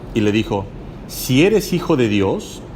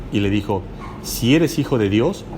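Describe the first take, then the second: No difference in how they are said.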